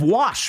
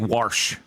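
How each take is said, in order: First: The word has no r sound before sh. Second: The word has an r sound before sh. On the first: This is the way without a Southern accent. "instead of wash" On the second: This is the Southern way of saying it. "I don't say warsh"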